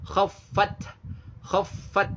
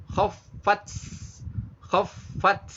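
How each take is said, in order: First: Higher KHAFFAT, firm stop then a light breath on T; syiddah then hamas. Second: KHAFFAT released into a hissed TS; mistaken TS ending. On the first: Teacher corrects khaffat, clean stopped breathy T. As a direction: close the final T of KHAFFAT hard, then puff. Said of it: "Ada karakter syiddah kuat, ada juga karakter hamas". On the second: Teacher shows learners a forbidden reading, final T turned to TS. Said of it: "Jangan dibaca". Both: Shown as a demonstration.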